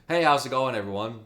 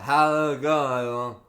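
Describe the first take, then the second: First: The words are clearly and crisply pronounced. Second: The words are slurred and hard to make out. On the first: The speaker calls it right. "when I don't have my tongue out" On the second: The speaker calls it wrong. "try speaking with your tongue out"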